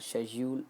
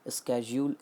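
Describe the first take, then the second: First: It begins with an 'sh' sound, British style. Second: It begins with an 'sk' sound, American style. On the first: "एक British pronunciation है" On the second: "एक American pronunciation है"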